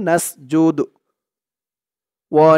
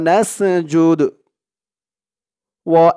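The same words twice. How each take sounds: Both takes have the same delivery.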